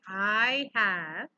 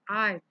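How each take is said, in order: First: Both words are said fully and separately. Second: The two words merge into one short syllable. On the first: "Instead of saying I have" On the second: "you say it also in the short form"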